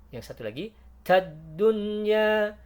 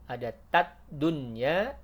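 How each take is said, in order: First: Tad dunya with a voiced, unbreathy t; unaspirated t. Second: Tad dunya with an aspirated t; breathy t. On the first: Teacher contrasts the other tad, higher and louder. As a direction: say tad without air. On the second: Teacher contrasts the breathy tad. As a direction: let air out on tad. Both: Shown as a demonstration.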